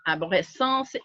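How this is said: The word is said with a French pronunciation. "in English, um, excuse me, in French"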